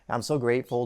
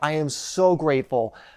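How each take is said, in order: First: It is said flatly, with little energy. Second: It is said lively, with lots of energy. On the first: The gratitude is not really felt. The speaker calls it wrong. "there's no energy behind it" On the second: The gratitude is deeply felt. The speaker calls it right. "it just lights a fire in my heart"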